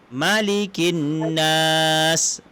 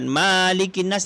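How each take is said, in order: First: The first vowel is kept short. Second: The first vowel is held long. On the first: The speaker calls it right. "tapi Malikin Nas; Kalau Malikin Nas ma dia pendek" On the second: The speaker calls it wrong. "bukan Malikin Nas"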